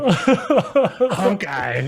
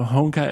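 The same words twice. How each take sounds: First: The first syllable is said loudly like honk. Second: The first syllable is said plainly without emphasis. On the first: This is how the host said the name. The speaker calls it wrong. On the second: This is how the company employee said the name. The speaker calls it right.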